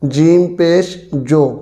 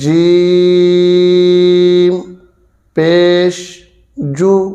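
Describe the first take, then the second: First: The final vowel sounds like 'oh'. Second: The final vowel sounds like 'oo' with rounded lips. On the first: The speaker calls it wrong. "जैसे कि मजहूल पढ़ा जाता है" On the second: The speaker calls it right. "मारूफ तरीके के साथ मुकम्मल होंठों को गोल करना है"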